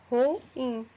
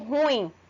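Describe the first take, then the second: First: The two vowels are split into two syllables. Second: The two vowels glide together in one syllable. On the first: The speaker calls it right. "a pronúncia correta de ruim é dessa forma" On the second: The speaker calls it wrong. "elas acabam pronunciando a palavra ruim como ruim"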